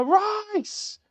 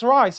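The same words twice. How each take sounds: First: High mock goal yell of a name; mock celebration shout. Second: Said in the usual way. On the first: Fan mocking a goal celebration, a high mock yell. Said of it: "you don't hit a ball and go". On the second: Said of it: "if somebody shouts".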